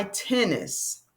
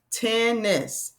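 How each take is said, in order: First: Said in the usual way. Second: "Tennis" drawn out as two even beats, ten-ness; split into syllables. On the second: Shown as a demonstration. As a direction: say "Tennis" slowly, stretching each syllable. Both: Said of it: "So that's two syllables".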